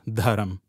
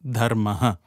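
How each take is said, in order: First: The word ends in a consonant sound. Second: The word ends in a vowel sound. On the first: The speaker calls it wrong. "It is not just dharam" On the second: The speaker calls it right. "It is dharma"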